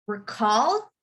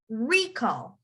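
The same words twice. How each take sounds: First: "recall" with "-call" stressed, rising; stress on second syllable. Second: "recall" with "RE-" stressed, falling away; stress on first syllable. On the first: Teacher contrasting verb with noun, "recall" stressed on -call. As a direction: hit the end of "recall". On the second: Teacher contrasting noun with verb, "recall" stressed on RE-. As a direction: hit the start of "recall". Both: Shown as a demonstration. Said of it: "That's the difference".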